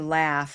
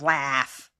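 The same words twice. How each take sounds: First: The vowel is small and toned down. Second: The vowel is wide and strongly exaggerated.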